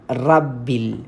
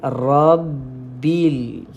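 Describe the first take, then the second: First: The r sound is light and thin. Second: The r sound is heavy and thick. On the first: The speaker calls it wrong. "baca dia baca gini ... Jawapannya adalah salah" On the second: The speaker calls it right. "Yang betul kita kena baca dengan tebal"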